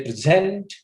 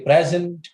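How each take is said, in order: First: "present" with the weight on its second syllable, pre-ZENT; verb stress. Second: "present" with the weight on its first syllable, PREZ-ent; noun stress. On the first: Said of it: "use of this word as a verb". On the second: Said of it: "it becomes a noun". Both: Shown as a demonstration.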